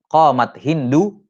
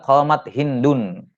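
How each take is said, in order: First: The name ends on a vowel, without final n. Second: The name ends with an added final n sound. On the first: The name is treated as not taking nunation. "tanpa tanwin karena mamnu' minas saraf" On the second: The name is treated as an ordinary noun taking nunation. "dia ini di i'rab dengan isim biasa, bukan mamnu' minas sarf. Dia munawwan"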